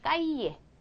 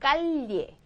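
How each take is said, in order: First: The double-L is sounded like a Y. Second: The double-L is sounded like an L. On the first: This is the most standard pronunciation. "가장 정상적인 발음은 그냥 까이에" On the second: This is how it sounds in some regions. "리을을 더 많이 집어넣기도 하는데"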